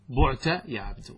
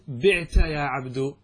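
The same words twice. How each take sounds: First: The first vowel of the verb is 'u'. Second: The first vowel of the verb is 'i'. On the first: It means 'you were sold'. The speaker calls it right. "فتضم" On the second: It sounds like the active 'I sold'. The speaker calls it wrong. "لا يجوز الكسر"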